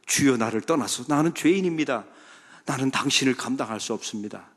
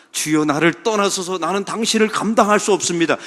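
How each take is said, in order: First: Said in the usual way. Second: Loud confession. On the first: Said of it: "이게 본래 신앙 고백이었거든요". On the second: Retold or imitated. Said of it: "이렇게 고백합니다".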